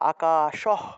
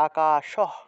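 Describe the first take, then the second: No difference in how they are said.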